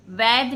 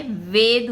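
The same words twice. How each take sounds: First: वैद said with an open "ai", like vaid; wrong vowel. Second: वेद said with a closed "e", like vayd; correct vowel. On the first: Teacher to students, showing the mistaken वैद with an open ai. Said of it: "वैद नहीं होता है". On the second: Teacher to students, giving the correct वेद with a closed e. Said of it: "वेद होता है". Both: Shown as a demonstration.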